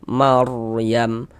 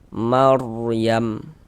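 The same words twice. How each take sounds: No difference in how they are said.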